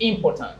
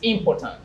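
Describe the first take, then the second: First: The stress is on the second syllable. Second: The stress is on the second syllable.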